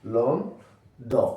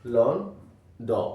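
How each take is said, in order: No difference in how they are said.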